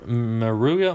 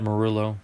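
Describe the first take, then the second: First: The double L is said as a Y sound. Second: The double L is said as an L sound. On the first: The speaker calls it wrong. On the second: The speaker calls it right. "but it's probably Matt Marullo"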